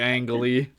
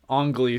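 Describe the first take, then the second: First: The first vowel sounds like the 'a' in 'cat'. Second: The first vowel sounds like the 'o' in 'song'. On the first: The speaker calls it wrong. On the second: The speaker calls it right. "it's Ong Lee. That's how you pronounce it"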